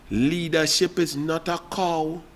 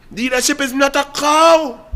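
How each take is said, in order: First: Soft, slow, dropped low in volume; hushed, deliberate aside; quiet and slow. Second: Raised voice, "cow" stressed with a falling tune; emphatic punchline. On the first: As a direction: lay the proverb down quietly and slowly. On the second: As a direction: hit "cow" as the punchline, pitched up. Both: Shown as a demonstration.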